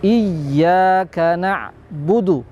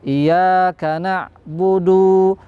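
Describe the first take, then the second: First: The y sound is clearly held and doubled. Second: The y sound is short and single. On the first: The speaker calls it right. "bacaan tasdidnya harus betul-betul dibaca dengan jelas" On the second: The speaker calls it wrong. "bacaan yang keliru ketika bacaan tasdidnya dihilangkan"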